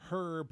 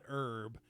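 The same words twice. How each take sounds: First: The word begins with an h sound. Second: The word begins without an h sound. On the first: The speaker calls it right. "It's herb" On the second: The speaker calls it wrong. "not herb. You don't call someone Herbert"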